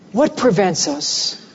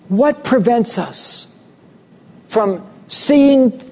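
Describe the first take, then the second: First: Said in the usual way. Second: Slow, higher "What prevents us", stressing "What"; emphatic repeat. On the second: Acted. Preacher pressing the congregation, slow and higher on "What". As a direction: lean hard on "What" and stretch it out.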